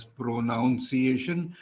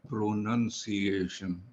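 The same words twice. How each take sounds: First: "pronunciation" mispronounced as pro-NOUN-see-ay-shun; "pronunciation" with "noun" wrongly sounded inside it; wrong NOUN vowel. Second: "pronunciation" slowly as pro-NUN-see-ay-shun; "pronunciation" carefully sounded out with "nun", no OW; correct NUN vowel. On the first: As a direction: say "pronunciation" with an OW, like noun, in the second syllable. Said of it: "it is not pronounced as pronunciation". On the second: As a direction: say "pronunciation" slowly and softly, second syllable like nun. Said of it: "not pronounced as pronunciation, but pronunciation".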